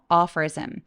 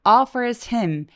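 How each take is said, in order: First: The h in him is weak, nearly dropped. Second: The h in him is strong. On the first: "약간 죽여서" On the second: "H 소리 조금 더 세게 내셔도 괜찮고요"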